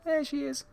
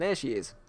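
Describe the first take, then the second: First: There she is much higher, squeaky delight; high squeal. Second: Said in the usual way. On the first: Shown as a demonstration. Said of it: "repeated, much higher". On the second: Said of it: "repeated greeting".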